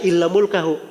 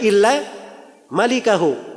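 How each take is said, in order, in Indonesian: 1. Kata kedua diucapkan sebagai mulkahu. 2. Kata kedua diucapkan sebagai malikahu. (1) "Dia bacanya illa mulkahu" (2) "Kalau bacaan yang benarnya illa malikahu"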